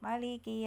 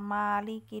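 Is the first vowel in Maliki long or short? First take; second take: short; long. First: The first vowel is kept short. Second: The first vowel is held long. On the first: The speaker calls it right. "yang dibaca adalah yang ini" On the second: The speaker calls it wrong. "jangan dibaca Maliki dua rokat"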